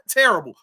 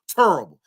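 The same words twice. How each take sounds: First: The first syllable is said 'ter', as usual. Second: The first syllable is said 'tur', drawn out. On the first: "Not terrible" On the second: "T U R R I B L E"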